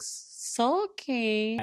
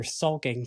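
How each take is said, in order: First: Put-on high, drawn-out childish echo; mock child voice. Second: Said in the usual way. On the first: Podcaster imitating her repeating a word, mock child voice. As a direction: repeat it like a little child, pitched way up. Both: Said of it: "repeating, like, how a child would".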